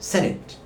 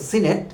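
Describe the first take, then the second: First: The first vowel sounds like 'eh'. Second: The first vowel sounds like 'ee'. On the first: This is the dictionary-correct pronunciation. The speaker calls it right. "Dictionary শুদ্ধ উচ্চারণ হলো সেনেট" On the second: This is the commonly used pronunciation. The speaker calls it wrong. "প্রচলিত উচ্চারণ হলো সিনেট"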